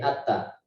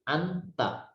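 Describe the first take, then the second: First: The n sound disappears into a double t. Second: The n sound is pronounced fully and clearly. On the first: "Kalau dimasukkan menjadi nunnya hilang" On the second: "kalau dibaca jelas begini"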